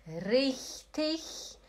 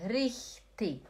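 First: "Richtig" ending in ich-sound; slow "Richtig" as "rich-tich"; soft-ending richtig. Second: "richtig" ending in K; hard-ending richtig. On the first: Teacher contrasting options, CH-ending "richtig". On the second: Teacher contrasting options, K-ending "richtig". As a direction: say "richtig" as "rich-tik". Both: Shown as a demonstration. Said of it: "Pode ser os dois".

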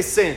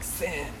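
First: Said in the usual way. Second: "Sin." with a long hissing s, very soft; drawn-out s like a snake. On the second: Shown as a demonstration. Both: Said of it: "You gotta say it like a snake".

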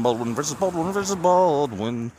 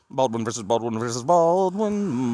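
First: Baldwin repeated with a flatter vowel; Baldwin other three ways. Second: Baldwin said three ways, testing the vowel. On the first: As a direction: try Baldwin again, varying its sound. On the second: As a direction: try Baldwin with different vowels. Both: Shown as a demonstration. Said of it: "which one is right and which one is wrong".

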